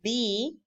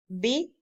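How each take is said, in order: First: The vowel is long. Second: The vowel is short. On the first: "but B is long" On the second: "B is short"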